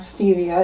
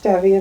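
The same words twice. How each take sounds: First: The word is said with an English pronunciation. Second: The word is said with a Spanish pronunciation. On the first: The speaker calls it wrong. "not stevia" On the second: The speaker calls it right. "actually is pronounced stevia"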